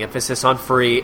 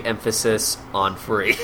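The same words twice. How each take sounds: First: "free" given clear weight; stress on free. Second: Slow phrase landing on "free"; slow stress on free. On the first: Explaining freestyle cruising, "free" stressed. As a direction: lean on the word "free". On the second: Repeating the freestyle cruising point, slowly stressing "free". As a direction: draw it out and weight "free". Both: Shown as a demonstration.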